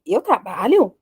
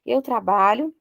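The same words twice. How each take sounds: First: "trabalho?" with a clear rising question intonation; rising question tune. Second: Said in the usual way. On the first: Shown as a demonstration. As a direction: lift the end of "Eu trabalho?" into a question. (entonação de pergunta, subindo em "trabalho") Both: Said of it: "minha entonação".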